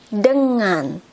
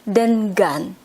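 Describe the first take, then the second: First: The middle 'ng' is one nasal sound. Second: The middle is said as n then g. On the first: The speaker calls it right. "we say it as dengan" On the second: The speaker calls it wrong. "instead of dengan"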